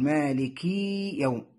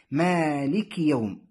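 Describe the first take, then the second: First: "مالكي" with the kasra under the kaf stretched into a long ee; over-lengthened kasra. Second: "مالك يوم" with a long first vowel and short i after kaf; short kasra. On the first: Teacher shows learners the mistake, "مالكي" with a long final ee. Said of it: "البعض يشبع الكسرة التي تحت الكاف". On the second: Teacher shows the correct reading, "مالك" with short final i. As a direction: keep the kaf's vowel short in "مالك", slowly. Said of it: "الصحيح". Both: Shown as a demonstration.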